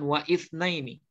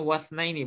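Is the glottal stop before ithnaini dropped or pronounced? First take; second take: pronounced; dropped. First: The initial hamzah is pronounced after wa. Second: The initial hamzah is dropped, linking into wa. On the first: The speaker calls it wrong. "bukan waithna ini" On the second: The speaker calls it right. "Tadi kita bacanya wasna ini"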